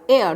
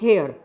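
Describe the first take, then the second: First: The word begins with a vowel sound. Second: The word begins with an h sound. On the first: The speaker calls it right. "एयर not हेयर" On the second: The speaker calls it wrong. "Not हेयर"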